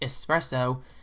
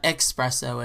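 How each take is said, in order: First: The word is said with its standard pronunciation. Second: The word is said with an imitated mispronunciation. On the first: The speaker calls it right. "Next up is Espresso" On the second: The speaker calls it wrong. "not Espresso as Michael Scott calls it"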